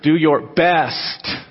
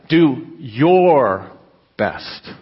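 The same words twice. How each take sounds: First: The stress is on the word best. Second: The stress is on the word your.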